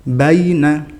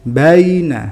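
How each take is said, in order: Both takes have the same delivery.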